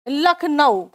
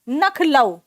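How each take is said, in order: First: The word begins with an L sound. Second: The word begins with an N sound. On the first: "इसका सामान्यतः बहुत लोग उच्चारण करते हैं" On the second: "ध्वनि विपर्य जब हो जाता है"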